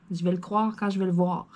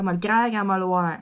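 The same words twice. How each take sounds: First: Careful standard French "croire" and "voir"; standard pronunciation. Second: Broad Québécois accent. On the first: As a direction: say "croire" and "voir" fully, without Québécois colouring. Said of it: "Mais avec mon accent québécois". (prononciation standard de « croire » et « voir ») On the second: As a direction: lean into casual Québécois on "croire" and "voir". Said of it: "avec mon accent québécois". (accent québécois bien marqué) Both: Shown as a demonstration.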